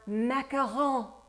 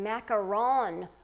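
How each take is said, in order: First: It is said with a put-on French accent. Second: It is said with a plain English accent.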